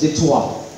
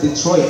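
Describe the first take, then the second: First: The name is said with a French pronunciation. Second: The name is said with an English pronunciation. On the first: This is the original form of the name. The speaker calls it right. "it's supposed to be pronounced as Detroit" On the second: This is the adapted form of the name. The speaker calls it wrong. "It's not Detroit, no? It's anglicized"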